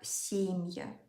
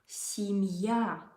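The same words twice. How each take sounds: First: The stress is on the first syllable. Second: The stress is on the last syllable. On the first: The speaker calls it wrong. "people tend to put stress on this vowel ... making this ye very clear. It's not correct" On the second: The speaker calls it right. "The stress here goes to the last vowel, yeah, last syllable"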